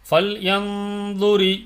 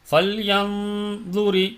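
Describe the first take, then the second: The two takes are said the same way.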